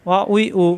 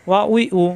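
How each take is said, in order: No difference in how they are said.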